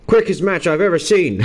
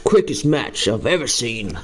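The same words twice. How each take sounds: First: Half-hearted Irish commentator; attempted Irish accent. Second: "quickest match I've ever seen" in a lightly put-on Irish lilt; half-hearted Irish commentator, second try; mock Irish accent. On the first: Streamer trying his best Irish accent on the wrestling result. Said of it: "I will try my best Irish accent". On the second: Streamer redoing the line in his best Irish accent. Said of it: "I can only really say Conor".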